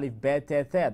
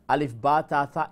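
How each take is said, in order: First: The letter names end in an 'e' vowel. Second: The letter names end in an 'a' vowel. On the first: "That's Urdu" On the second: "is um, Arabic. So that's how you pronounce them"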